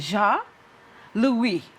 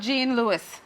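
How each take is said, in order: First: It is said with a Haitian French pronunciation. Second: It is said with an American English pronunciation. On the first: It is the way the guest wants it said. "She wants me to pronounce it right" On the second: It is the way Americans would say it. "for us Americans and other Caribbean"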